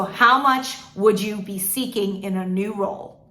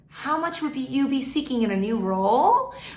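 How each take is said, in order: First: The voice falls at the end of the question. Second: The voice rises at the end of the question. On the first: The speaker sounds authoritative and confident. The speaker calls it right. "end every sentence on a downward note" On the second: The speaker sounds junior and less confident. The speaker calls it wrong. "that just makes you sound more junior, less confident"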